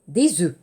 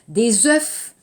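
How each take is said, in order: First: The final F sound of œufs is silent. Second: The final F sound of œufs is pronounced. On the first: The speaker calls it right. "Attention à la phonétique" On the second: The speaker calls it wrong.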